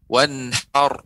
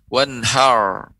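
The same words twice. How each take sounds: First: The final r is a light, slightly moving tap. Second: The final r is stiff with no tongue movement. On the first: The speaker calls it right. "Tetap lidah digerakkan tapi sedikit" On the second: The speaker calls it wrong. "bukan berarti dengan tidak digerakkan lidahnya seperti wanhar"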